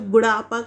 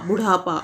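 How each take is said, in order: First: The middle consonant has no breath release. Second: The middle consonant has a strong breath release. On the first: The speaker calls it wrong. "इस ढ की जगह इस डा का use यहाँ पे कर दिया जाता है" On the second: The speaker calls it right. "बुढ़ापा अढ़ा की बात हो रही है"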